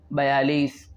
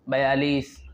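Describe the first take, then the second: No difference in how they are said.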